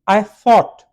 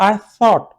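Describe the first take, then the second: The two takes are said the same way.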